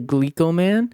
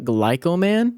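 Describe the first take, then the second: First: The first syllable sounds like 'glee'. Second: The first syllable sounds like 'glye'. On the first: The speaker calls it right. "I really think it's called Glico Man or closer to Glico Man" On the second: The speaker calls it wrong. "I spent this entire video calling this very famous hotspot in Osaka Glyco Man"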